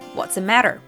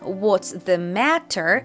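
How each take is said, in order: First: The words run together with a reduced 'the'. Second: Each word is said fully and separately. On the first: "the is reduced to just a schwa sound uh, and all three words connect" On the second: "Instead of what's the matter"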